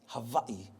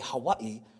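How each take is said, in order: First: The word begins with a V sound. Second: The word begins with a W sound. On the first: The speaker calls it right. "properly pronounced Hawaii" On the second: The speaker calls it wrong. "even though we say Hawaii"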